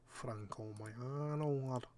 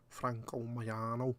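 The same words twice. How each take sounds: First: Slow, drawn-out Mancunian drawl; light Manc accent, relishing the name. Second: Said in the usual way. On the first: Pretend. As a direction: savour the name like a Manchester lad. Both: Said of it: "good name to say in a Manc accent".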